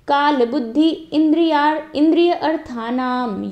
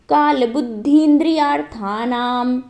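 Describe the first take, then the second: First: The words are split apart with breaks. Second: The words flow together without breaks. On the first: The speaker calls it wrong. "एक flow टूटता है बीच बीच में।" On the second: The speaker calls it right. "अब देखना मैं कैसे बोल रही हूँ।"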